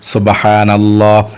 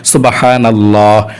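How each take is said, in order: Both takes have the same delivery.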